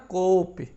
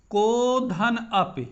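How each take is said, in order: First: "कोपि" एक ही शब्द में जोड़कर, को और पि सटाकर; "कोपि" बिना रुके एक साँस में; सही उच्चारण. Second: "को धन अपि" धीरे, तीनों शब्द अलग-अलग; "को धन अपि" को तोड़कर, रुक-रुक कर पढ़ना; सही नहीं उच्चारण. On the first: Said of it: "इसको पढ़ेंगे कैसे". ("कोपि" जुड़ा हुआ, ओ और इ के बीच विराम नहीं) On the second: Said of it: "इसका उच्चारण को अपि नहीं पढ़ा जाएगा". ("को धन अपि" जोड़े बिना, अलग-अलग शब्दों में) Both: Shown as a demonstration.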